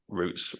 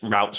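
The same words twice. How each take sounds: First: It is said in a non-American accent. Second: It is said in an American accent.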